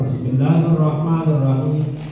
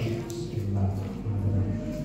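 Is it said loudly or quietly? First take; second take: loudly; quietly. First: It is said loudly, aloud. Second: It is said quietly, not aloud.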